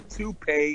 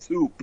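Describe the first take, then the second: First: It ends with an 'ay' sound. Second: It ends without an 'ay' sound. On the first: The speaker calls it right. "a toupee is a toupee" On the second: The speaker calls it wrong. "and not a toupe"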